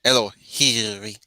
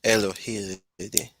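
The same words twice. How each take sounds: First: Elohiri said slowly with a clear tapped r; Elohiri, careful tapped R in the middle; corrected with an R. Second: Elohiiri said slowly, the r sounding like a D; wrong try, D sound. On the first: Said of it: "with an R". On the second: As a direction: Elohiiri with a soft D for the r, rising at the end. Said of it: "I think I said that with, with a D". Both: Shown as a demonstration.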